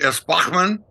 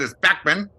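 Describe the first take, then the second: First: The name has a German pronunciation. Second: The name has an English pronunciation. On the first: "in Germany" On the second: "In England"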